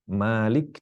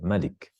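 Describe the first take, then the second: First: The first vowel is held long. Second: The first vowel is kept short. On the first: It means owner. "membaca Malik manya panjang" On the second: It means ruler or king. "membaca Malik manya pendek"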